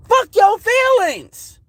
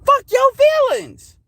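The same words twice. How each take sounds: First: Slow, high, drawn-out defiance; high slow defiant jab. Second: Even higher, slow, drawn-out defiance; slow high taunting repeat; defiant. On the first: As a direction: spit it out slowly and high, daring them. Defiant rant at critics. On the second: Repeats defiant rant line. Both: Real, not acted.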